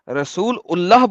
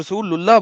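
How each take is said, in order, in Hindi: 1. हिस्से अलग-अलग बोले जाते हैं, और 'ullah' पर खत्म होते हैं। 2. हिस्से जुड़कर बोले जाते हैं, 'lulla' जैसी आवाज़ आती है। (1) "रसूल उल्लाह बोलते हैं" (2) "इसे रसूलुल्लाह बोला है"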